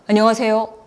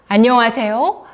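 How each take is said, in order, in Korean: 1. 입을 거의 다문 채 웅얼거렸습니다. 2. 입을 넓게 벌려 또렷하게 발음했습니다. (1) "입을 다물고" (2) "발음을 정확하게 하면서"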